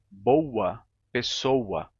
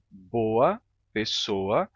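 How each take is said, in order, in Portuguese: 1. As palavras são ditas com a semivogal U acrescentada. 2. As palavras são ditas sem a semivogal U acrescentada. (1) "eles colocam um U aí e dizem" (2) "no meu sotaque se pronunciam assim"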